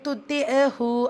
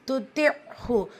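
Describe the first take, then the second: First: An extra 'a' vowel is sounded before hu. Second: The consonant closes with no added vowel before hu. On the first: The speaker calls it wrong. "அப்படின்னு சொல்லாதீங்க" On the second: The speaker calls it right. "ஐன் சுக்கூன்"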